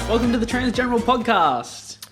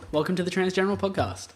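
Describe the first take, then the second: First: It is said very loudly. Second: It is said more quietly.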